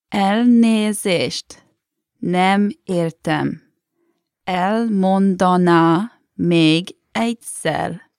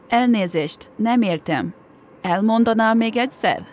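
First: It is said slowly. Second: It is said at normal speed.

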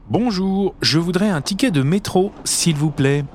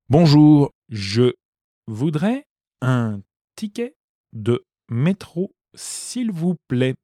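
First: It is said at normal speed. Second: It is said slowly.

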